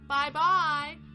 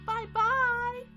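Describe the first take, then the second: First: It is said in a medium-pitched voice. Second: It is said in a high, squeaky voice.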